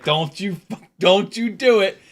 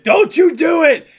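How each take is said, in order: First: Higher-pitched warning, held short of a scream; "don't you dare" warning, not yet screamed; mock warning. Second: High, loud retold scream; full-voiced, high-pitched re-enacted shout; screamed warning. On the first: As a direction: warn him off in a rising voice. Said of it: "And I actually screamed up there". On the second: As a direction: yell it up at someone to stop him. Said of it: "I actually screamed up there".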